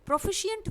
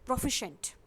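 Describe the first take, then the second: First: It ends in four syllables, like pro-fi-shi-ent. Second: It ends in three syllables, like pro-fi-shent. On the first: The speaker calls it wrong. "जो कि एक wrong pronunciation है" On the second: The speaker calls it right. "इसका correct pronunciation है, एक बार फिर से सुन लीजिए"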